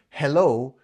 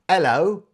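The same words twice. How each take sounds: First: The H sound at the start is pronounced. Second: The H sound at the start is dropped.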